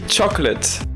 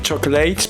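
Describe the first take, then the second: First: The last syllable has a short weak vowel. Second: The last syllable rhymes with gate. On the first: The speaker calls it right. "ça se dit chocolate... c'est un petit E" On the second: The speaker calls it wrong. "certaines personnes ont tendance à dire chocolate parce qu'on dit gate"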